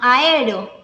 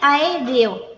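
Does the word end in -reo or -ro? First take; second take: ro; reo. First: The word ends with a reduced -ro sequence. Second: The word ends with the full -reo sequence. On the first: This is a child's simplified form. The speaker calls it wrong. "sino aero" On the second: This is the adult form. The speaker calls it right. "el niño a lo mejor no dice aéreo"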